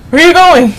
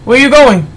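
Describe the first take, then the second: First: Even louder and higher, insisting; louder call. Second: Loud, higher call after someone leaving. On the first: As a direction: shout it again, harder, demanding an answer. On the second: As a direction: shout after him as he walks off. Entrant walks off, he calls after. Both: Real, not acted.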